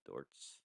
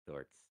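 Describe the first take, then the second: First: Low, hushed radio DJ voice. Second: Laughing. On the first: Pretend. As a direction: say the name like a late-night host. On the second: Real, not acted. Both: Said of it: "put on my radio voice".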